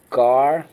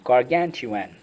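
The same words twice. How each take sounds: First: GARGANTUAN in separate syllables with long gaps. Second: Said in the usual way. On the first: Shown as a demonstration. Teacher having the class repeat each part, syllable by syllable. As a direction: leave room after each part of GARGANTUAN. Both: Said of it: "Let's go".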